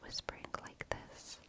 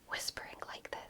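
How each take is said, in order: First: It is a very soft, gentle whisper. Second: It is a forceful, strained whisper. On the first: This way of whispering is healthy for the voice. The speaker calls it right. "is much considerably more healthy for your voice" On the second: This way of whispering strains the voice. The speaker calls it wrong. "That's not very good for you"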